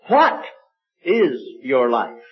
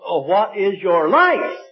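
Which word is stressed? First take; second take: what; life. First: The stress falls on the word what. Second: The stress falls on the word life. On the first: "With the emphasis on the what" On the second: "With the emphasis on life"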